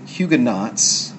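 The word is pronounced the English way. "in English you may often hear Huguenots"

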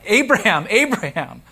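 The name is called out urgently.

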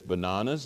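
The stressed vowel is an open 'ah' sound. This is the English way of saying it. The speaker calls it right. "it's just exactly as like they say, it is bananas"

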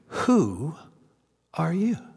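The word "who" is stressed. "The word he emphasizes in this three-word question? Was it"

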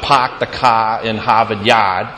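It is said in a Boston accent.

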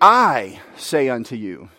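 The stress falls on the word 'I'. The speaker holds authority in himself. "The focus is on the I, as one with authority"

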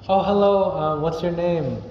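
It sounds warm and friendly.

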